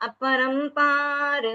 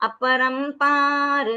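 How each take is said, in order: No difference in how they are said.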